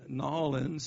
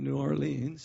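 First: It is said in the local Louisiana way. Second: It is said in the usual outsider way. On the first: The speaker calls it right. "Hear the and New Orleans" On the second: The speaker calls it wrong. "instead of New Orleans"

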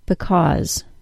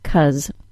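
First: Both syllables are said, with a stressed AW vowel. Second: The first syllable is dropped, leaving just 'cuz'. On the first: This is formal speech for careful situations. "the stressed pronunciation that uses the AW sound" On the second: This is casual speech for use among friends. "with the first syllable removed"

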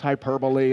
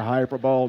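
First: It ends with a 'lee' sound, four syllables. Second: It ends like the word 'bowl'. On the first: The speaker calls it right. "Parents correcting their children, don't talk like him" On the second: The speaker calls it wrong. "It's not hyperbole. Do not do that"

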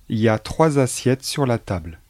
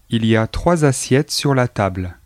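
First: The sentence starts directly with y a. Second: The sentence starts with a pronounced il. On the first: This is the casual spoken form. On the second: This is the standard form.

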